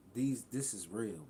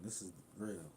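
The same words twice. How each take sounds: First: Slow, loud, leaning on each word; slow emphatic insistence. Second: Said in the usual way. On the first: Real, not acted. Telling viewers the history is real, slow emphatic stress. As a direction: drive it home slowly and loudly.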